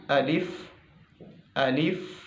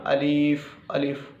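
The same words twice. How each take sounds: First: "अलिफ" with tongue tip at upper teeth roots; a careful, correct "अलिफ"; right way. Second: "अलिफ" said the wrong, Urdu way; a deliberately wrong "अलिफ". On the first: Teacher showing students the correct way, careful. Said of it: "आपने ऐसे पढ़ना है". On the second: Teacher showing students how not to say it, wrong. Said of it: "आपने ऐसे नहीं पढ़ना". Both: Shown as a demonstration.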